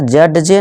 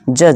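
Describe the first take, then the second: First: A separate d sound is pronounced. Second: No separate d sound is pronounced. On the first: The speaker calls it wrong. "नहीं" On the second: The speaker calls it right. "यहाँ D क्या है silent"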